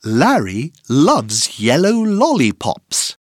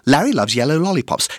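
First: The sentence is said at a normal pace. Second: The sentence is said at a very fast pace.

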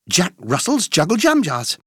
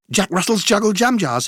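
First: The phrase is said at a fast pace. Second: The phrase is said at a very fast pace. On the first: "plus vite!" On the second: "Encore plus vite!"

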